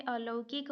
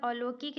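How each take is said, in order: First: "अलौकिक" with an au glide, a-lau-kik; correct form alaukik. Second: "अलौकिक" with a pure o, a-lo-kik; wrong form alokik. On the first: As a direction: glide the middle vowel of "अलौकिक". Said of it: "अलौकिक होता है". ("अलौकिक" में लौ साफ़ बोलें) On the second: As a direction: say lo in place of lau in "अलौकिक". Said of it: "अलौकिक नहीं होता है". ("अलौकिक" को अ-लो-किक बोलें) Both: Shown as a demonstration.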